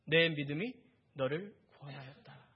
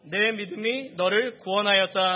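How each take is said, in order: First: Lower, conversational, tender quote; calm affirmation with small pauses; gentle praise. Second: Loud, slow, declaimed verse; projected, measured phrase by phrase; scripture reading aloud. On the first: Acted. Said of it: "그녀를 칭찬해 주셨어요". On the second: Real, not acted. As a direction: read out for a congregation to follow. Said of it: "우리 함께 읽겠습니다".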